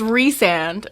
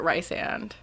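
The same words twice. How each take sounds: First: Rhysand said REE-sand; careful REE in Rhysand. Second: Rysand said RYE-sand. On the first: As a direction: say Rhysand with a long EE first. Shows correct pronunciation. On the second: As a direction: say Rysand with a long I first. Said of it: "I pronounce it Rysand". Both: Shown as a demonstration.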